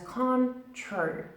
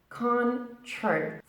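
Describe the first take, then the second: The two takes are said the same way.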